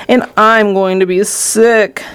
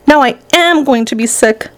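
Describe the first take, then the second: First: Slow, drawn-out complaint of nausea; mild queasy yell. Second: Higher yell leaning on "am"; insistent yell. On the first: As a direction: drag it out as if about to be sick. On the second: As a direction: hit "am" to insist on being sick. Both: A narrator's reading. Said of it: "yelled Missus T V".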